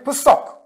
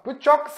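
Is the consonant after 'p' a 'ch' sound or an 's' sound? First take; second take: s; ch. First: The consonant after 'p' is an 's' sound. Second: The consonant after 'p' is a 'ch' sound. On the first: This is how other dialects say it. "il y en a d'autres qui ne prononcent pas le tch. Ils vont dire psok" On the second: This is how one group of dialects says it. "l'exemple pchok"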